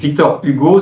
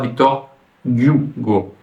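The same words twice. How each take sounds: First: The surname begins directly with a vowel sound. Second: The surname begins with a G sound. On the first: This is the French way of saying it. "en français, on a la lettre H, Hugo" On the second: This is the Russian way of saying it. "appeler comme G, avec la, la prononciation G"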